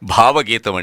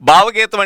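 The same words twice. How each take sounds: First: The first consonant is aspirated, a breathy bh. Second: The first consonant is unaspirated, a plain b. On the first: A song full of deep emotion from the heart. The speaker calls it right. "గుండె లోతుల్లో నుంచి గంగాజలంలా పెళ్ళుబికి వచ్చేటువంటి భావావేశంతో కూడిన గీతం" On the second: A song sung at home by one's brother-in-law. The speaker calls it wrong. "మన బావ, మన అక్కాళ్ళ husband, ఆయన ఇంట్లో పాడుకునే పాట"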